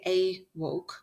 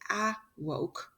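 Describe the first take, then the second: First: The first vowel is a long A sound. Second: The first vowel is a short A sound. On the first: "If it was a long A" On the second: "If it was a short A"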